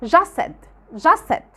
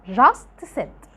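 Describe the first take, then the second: First: Just said as "jus said", T gone; natural linked just said; t dropped. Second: Just said slowly with a clear T at the end of just; the careful way not to say it; full T. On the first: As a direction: join just said with no T. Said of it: "مش هنطقها". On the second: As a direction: stress the T in just said. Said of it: "مش هنقول". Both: Shown as a demonstration.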